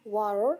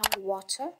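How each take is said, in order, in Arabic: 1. يُنطق بلكنة أمريكية. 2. يُنطق بلكنة بريطانية. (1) "الأمريكي كيقول لها" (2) "البريطاني كيقول لها"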